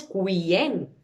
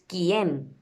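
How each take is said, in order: First: "cuien" with the u sounded, ku-ien; prononciation fautive. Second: "quién" as kyen, u silent; prononciation correcte. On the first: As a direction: show the mistake "cuien" with an audible u. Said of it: "No decimos cuien". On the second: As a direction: say "quién" with a plain k. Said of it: "decimos quién". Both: Shown as a demonstration.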